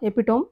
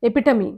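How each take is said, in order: First: It ends with a 'tome' sound. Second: It ends with a 'tuh-mee' sound. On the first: The speaker calls it wrong. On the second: The speaker calls it right.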